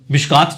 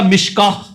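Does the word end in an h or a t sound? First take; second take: t; h. First: The word ends in a t sound. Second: The word ends in an h sound. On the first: This is the accepted Urdu form. "Urdu में मिशकात चल जाएगा" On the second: This is the Arabic pausal form. "अरबी में होगा मिशकाह, हा बन जाएगा"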